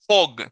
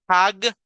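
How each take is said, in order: First: The vowel sounds like a Spanish O. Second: The vowel sounds like a Spanish A. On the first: "Ni tampoco es o, hog" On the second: "No es hag, H A G"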